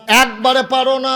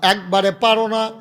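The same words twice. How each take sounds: First: High, loud preacher's cry; raised-voice exhortation; loud challenge. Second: Said in the usual way. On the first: Real, not acted. Preacher repeats challenge, escalating.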